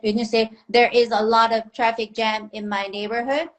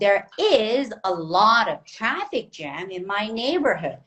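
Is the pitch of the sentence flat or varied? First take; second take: flat; varied. First: The pitch stays flat on one tone. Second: The pitch moves up and down throughout. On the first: The speaker calls it wrong. "it's monotone. It's only one tone" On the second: The speaker calls it right. "You need to give variation"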